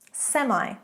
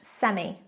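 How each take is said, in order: First: It is pronounced the American way. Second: It is pronounced the British way.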